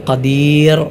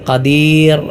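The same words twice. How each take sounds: No difference in how they are said.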